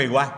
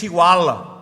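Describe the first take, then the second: First: Southern Spanish accent, final L of "igual" dropped; local southern Spanish accent. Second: Imitated Catalan accent with a heavy final L. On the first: Preacher showing how locals here say it, southern Spanish accent. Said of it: "Aquí decimos igual". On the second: Preacher showing how Catalans say it, imitated Catalan accent. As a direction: say "igual" like a Catalan, L drawn out. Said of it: "En Cataluña dicen que es igual". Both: Shown as a demonstration.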